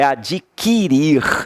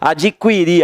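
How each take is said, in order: First: The u after the q is silent. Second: The u after the q is pronounced. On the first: The speaker calls it right. "É adquirir" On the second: The speaker calls it wrong. "Está errado isso"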